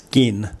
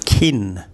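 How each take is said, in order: First: The first consonant has no puff of air. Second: The first consonant has a puff of air. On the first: The speaker calls it right. "it's not the same as the kin in family" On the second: The speaker calls it wrong. "that's not right"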